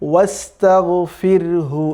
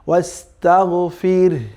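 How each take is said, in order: First: The word ends with hu, linked onward. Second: The word stops on the r sound. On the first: The reader joins it to the next word. "যদি আপনি পরবর্তী শব্দের সাথে মিলিয়ে পড়েন" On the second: The reader pauses after this word. "যদি আপনি থামেন"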